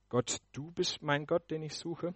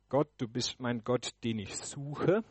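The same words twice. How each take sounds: First: The emphasis falls on the first word. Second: The emphasis falls on the final words. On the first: It is about which God is being sought. "Im zweiten Punkt betone ich das erste Wort" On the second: It is about the search for God. "In meinem ersten Punkt betone ich den letzten Teil"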